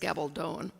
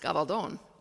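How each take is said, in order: First: The name is said English-style with a long final O. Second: The name is said with Spanish pronunciation. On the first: "the most common, if we're English speakers, is Gabaldon. It still has a long O in the last" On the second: "were we speaking Spanish, it would be pronounced Gabaldon"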